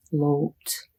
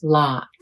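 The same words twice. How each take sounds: First: "lote" with a long oh vowel; hard O. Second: "Lot" with an open ah vowel; soft O. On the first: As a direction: round "lote" into a clear oh. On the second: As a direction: open the mouth wide on "Lot": ah. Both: Shown as a demonstration. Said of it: "listen to the difference".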